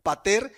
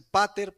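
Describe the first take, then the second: First: Pater stressed on the first syllable, PA-ter; correct stress. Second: Pater con acento en la última sílaba, paTER; wrong stress. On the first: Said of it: "el acento lo lleva en la E". ("pater" con el acento en la primera sílaba, PÁter) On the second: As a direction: stress pater on the final syllable, "paTER". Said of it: "en realidad el acento lo lleva en la E". ("pater" acentuado en la E final) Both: Shown as a demonstration.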